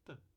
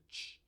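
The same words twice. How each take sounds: First: The t is a clean stop without friction. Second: The t is released with hissing friction. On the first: "com a oclusiva t" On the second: "com a africada t"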